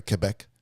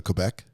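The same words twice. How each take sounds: First: "Quebec" corrected to keh-BEK; corrected French-style pronunciation. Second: "Quebec" said the anglicized way, kwuh-BEK; anglicized pronunciation. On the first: Host correcting own slip on Quebec, French-style keh-BEK. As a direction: say "Quebec" with a plain k, no w. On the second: Asking co-host about moving to Quebec, anglicized kwuh-BEK. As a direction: say "Quebec" with a kw at the start. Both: Real, not acted. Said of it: "Sorry, Quebec".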